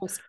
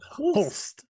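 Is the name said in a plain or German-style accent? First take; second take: plain; German-style. First: The name is said plainly, without a put-on accent. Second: The name is said in a German-style guttural accent.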